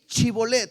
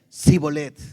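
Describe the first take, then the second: First: The word begins with a 'ch' sound. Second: The word begins with an 's' sound. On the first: The speaker calls it right. "di Chibolet" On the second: The speaker calls it wrong. "no podían pronunciar correctamente"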